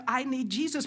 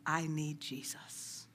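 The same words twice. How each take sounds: First: Quoting the husband with lifted surprise; stunned retelling. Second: Softly and slowly quote the husband; a humble, hushed confession; quiet, slow quote. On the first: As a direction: let the shock ring in it. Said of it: "His friends were shocked that he said". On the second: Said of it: "Like that husband said". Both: Retold or imitated.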